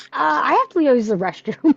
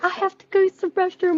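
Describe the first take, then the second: First: Said in the usual way. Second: Pitched way up, imitating herself; high mock voice. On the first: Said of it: "I'm like". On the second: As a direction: toss it off in a high put-on voice. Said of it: "I was like".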